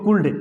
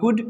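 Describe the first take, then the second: First: The L sound is pronounced in the word. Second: The L sound is left out of the word. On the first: The speaker calls it wrong. "कुछ लोग पढ़ते हैं इसको कुल्ड" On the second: The speaker calls it right. "सही sound होगा कुड"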